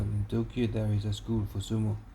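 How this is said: It is read in a flat monotone.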